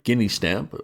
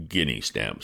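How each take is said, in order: First: "guinea" repeated higher with a rising tune; "guinea stamp" given in with a shrug; conceding word. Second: "Guinea" said firmly in place of penny, lower and quieter; "Guinea stamp" as a calm correction; "Guinea" put right, said low and level; correcting word. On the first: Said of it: "All right". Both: Shown as a demonstration.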